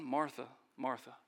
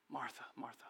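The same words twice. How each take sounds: First: Gentle. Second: Gentle, very soft. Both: Acted. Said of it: "Jesus was very gentle".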